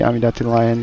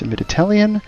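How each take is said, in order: First: The name is said in a Japanese-style pronunciation. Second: The name is said in its standard pronunciation. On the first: This is the speaker's habitual way of saying it. The speaker calls it wrong. "I always say Amidatilian because that's kind of uh, how it looks in the Japanese pronunciation" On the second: This is how the name actually goes. The speaker calls it right. "but it's Amiditalian"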